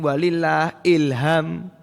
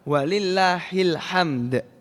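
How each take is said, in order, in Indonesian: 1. Kata terakhir diucapkan sebagai ilham. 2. Kata terakhir diucapkan sebagai hamd. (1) "ini salah. Maknane salah saking semangat dadine malah ilham" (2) "Jadi harus menggunakan hak"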